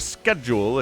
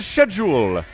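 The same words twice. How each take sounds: First: It is said with an American pronunciation. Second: It is said with a British pronunciation. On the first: "if you are an American" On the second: "as the British would say"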